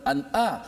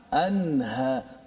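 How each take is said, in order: First: The middle sound is a sharp glottal stop. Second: The middle sound is a flowing breathy h. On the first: The speaker calls it wrong. "bukan an'a" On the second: The speaker calls it right.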